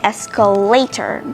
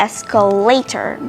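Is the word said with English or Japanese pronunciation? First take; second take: English; English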